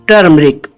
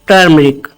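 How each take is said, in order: The two takes are said the same way.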